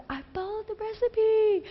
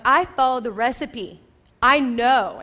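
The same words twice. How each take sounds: First: Very high-pitched protesting whine; mock whine. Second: "I followed the recipe" firm, at normal pitch; emphatic insistence. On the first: New wife defending her failed cake, mock whiny. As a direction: play up a plaintive, squeaky protest. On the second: Retold or imitated. New wife defending her baking, firmly insistent.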